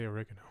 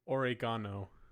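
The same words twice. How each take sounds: First: It is said the ordinary English way. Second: It is said in an Italian-sounding way. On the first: "he didn't say oregano" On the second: "He said oregano"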